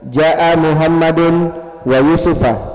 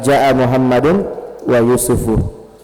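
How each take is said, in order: First: The final name ends with an 'a' vowel. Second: The final name ends with a 'u' vowel. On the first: Muhammad came together with Yusuf. "kalau kita baca Yusufa, berarti dia sebagai maf'ul ma'ah" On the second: Muhammad and Yusuf came. "Kalau kita baca Yusufu, berarti bukan maf'ul ma'ah"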